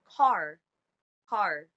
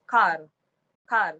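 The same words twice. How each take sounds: First: Said in the usual way. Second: "car" with a firmer R; Philippine English pronunciation. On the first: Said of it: "in standard English". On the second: Shown as a demonstration. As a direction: lean on the R in "car". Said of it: "And in the Philippines".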